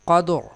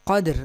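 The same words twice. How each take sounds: First: The final r is pronounced heavy and full. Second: The final r is pronounced thin and light. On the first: The speaker calls it right. "लिहाजा इस रा को हम पुर पढ़ेंगे" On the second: The speaker calls it wrong. "नहीं"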